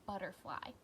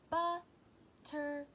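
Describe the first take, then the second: First: Said in the usual way. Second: "Butterfly" in three slow beats, bu, ter, fly; higher, louder, long pauses inside "Butterfly"; split into syllables. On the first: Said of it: "what about butterfly". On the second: Shown as a demonstration. Teacher counting for pupils, "Butterfly" slowly broken in three. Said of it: "That was three".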